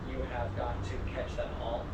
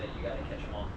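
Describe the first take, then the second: First: Every word is said separately and in full. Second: The words are shortened and run together.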